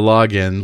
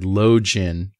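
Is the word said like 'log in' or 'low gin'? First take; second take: log in; low gin. First: It is split like 'log' plus 'in'. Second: It is split like 'low' plus 'gin'. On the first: The speaker calls it right. "instead of login" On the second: The speaker calls it wrong. "said the word login"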